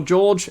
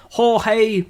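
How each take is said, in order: First: "George" said the English way, jorj; "George" with a j sound at start and end; English pronunciation. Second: "Jorge" said the Spanish way, hor-hay; "Jorge" with an h sound at the start and two syllables; Spanish pronunciation. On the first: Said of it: "he's not Spanish, he's Portuguese". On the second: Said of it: "or George, it's George, isn't it?". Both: Real, not acted.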